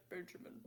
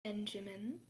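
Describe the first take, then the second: First: Much softer, dropped into a man's voice; lowered guy voice. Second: Softer, leaning in close; lowered soft tone. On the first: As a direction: drop into a random dude voice. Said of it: "Her voice lowers to a guy". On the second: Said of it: "she lowers her tone a little". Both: Acted.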